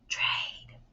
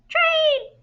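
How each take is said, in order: First: It is whispered without full voice. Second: It is said in a tiny, high, squeaky voice. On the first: "in a whisper voice" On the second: "in a mouse voice"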